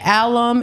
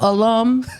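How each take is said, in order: First: The word has a Haitian Creole-influenced pronunciation. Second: The word has the standard English pronunciation.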